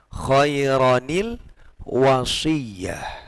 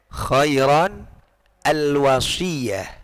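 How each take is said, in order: First: The words are joined by an added 'ni' sound. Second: The words are said apart, with no linking sound. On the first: The words are read continuously. "ketika disambung maka bacanya khairanil wasiyah" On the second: The second word stands alone. "Kalau ini dipisah bacanya"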